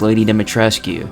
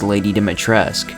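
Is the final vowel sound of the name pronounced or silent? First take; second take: pronounced; silent. First: The name ends with an audible final vowel. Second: The name ends without the final vowel. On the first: The speaker calls it wrong. "With the U on the end of the name, it seems that it would be pronounced as" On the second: The speaker calls it right. "the U is silent, and it's actually pronounced as"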